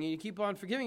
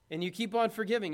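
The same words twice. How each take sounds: First: "keep on forgiving" eased off; refrain fading. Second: "keep on" leaned on, a little faster; each "keep on" pressed harder; stress on keep on. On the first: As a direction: let the refrain settle down. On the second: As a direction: drive "keep on" home as the refrain builds. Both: Shown as a demonstration. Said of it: "repeated for emphasis".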